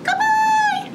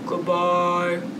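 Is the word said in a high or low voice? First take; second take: high; low. First: The word is said in a high voice. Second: The word is said in a low voice. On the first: "Pretend we have a really high squeaky voice" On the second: "Get out your deep voice"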